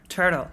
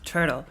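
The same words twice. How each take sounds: The two takes are said the same way.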